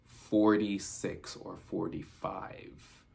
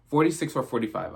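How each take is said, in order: First: Slow, stretched "forty-six or forty-five"; dragged slowly, unsure; drawn-out recall. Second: Said in the usual way. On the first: Shown as a demonstration. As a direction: draw out "forty-six" like reading a blurry number. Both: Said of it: "this is where I seen".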